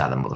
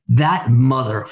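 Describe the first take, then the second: First: The final syllable gets no special emphasis. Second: The final syllable is heavily emphasized.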